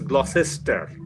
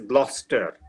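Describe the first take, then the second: First: Every letter of the name is sounded out. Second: The name is said in a shortened form. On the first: The speaker calls it wrong. "an Indian student would pronounce it as Gloucester" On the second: The speaker calls it right. "he would go and find that it is being pronounced as Gloucester"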